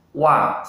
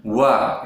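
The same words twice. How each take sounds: First: Compact wa, no air; correct wa. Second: Wa too big and breathy; wrong oversized wa. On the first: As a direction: say wa small and clean. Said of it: "seperti itu yang benar". (wa yang benar) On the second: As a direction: open wa too wide. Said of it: "itu salah ya". (wa yang salah, terlalu besar) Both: Shown as a demonstration.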